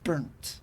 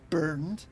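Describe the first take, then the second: First: The word ends with a t sound. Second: The word ends with a d sound. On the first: "T's in places where there shouldn't be" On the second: "instead of saying things like burned"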